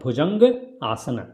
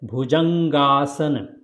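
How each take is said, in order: First: Two separate words with a short vowel sound. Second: One joined word with a long merged vowel. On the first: "Otherwise, small sound"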